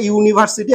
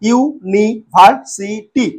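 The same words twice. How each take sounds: First: Said in the usual way. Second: ইউনিভার্সিটি very slowly as ইউ, নি, ভার, সি, টি; split into syllables. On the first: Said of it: "একটা উদাহরণ দিয়েছি তোমাদের". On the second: Shown as a demonstration. Teacher giving a polysyllable example, ইউনিভার্সিটি said syllable by syllable. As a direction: pause after each syllable of ইউনিভার্সিটি. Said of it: "ভেঙে পড়ছি কিরকম".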